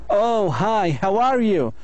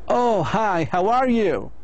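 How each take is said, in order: Both takes have the same delivery.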